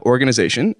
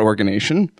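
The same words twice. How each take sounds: First: "organization" with the "-iz-" syllable in; correct pronunciation. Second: "organization" cut short to "organation"; mispronunciation. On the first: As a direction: say "organization" in full, or-gan-i-ZA-tion. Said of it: "not organation". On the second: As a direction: drop the "-iz-" from "organization": or-gan-A-tion. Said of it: "not organization". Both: Shown as a demonstration.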